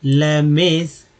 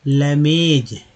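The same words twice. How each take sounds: First: Slow model. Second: Said in the usual way. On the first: Shown as a demonstration. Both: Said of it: "next देखिए layman's".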